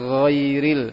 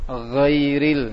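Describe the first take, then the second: No difference in how they are said.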